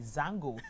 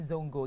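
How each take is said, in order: First: The first vowel is an 'a' sound. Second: The first vowel is an 'o' sound. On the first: The speaker calls it right. "It's actually Zango" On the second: The speaker calls it wrong. "please stop saying Zongo"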